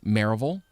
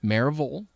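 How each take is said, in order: First: The name begins with a fuller 'Mary' sound. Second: The name begins with a fuller 'Mary' sound.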